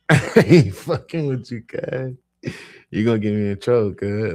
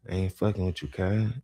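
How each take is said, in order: First: Loud, high, laughing through it; laughing scold. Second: Said in the usual way. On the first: Retold or imitated. Narrator scolds his cousin while laughing loudly. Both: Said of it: "I'm like".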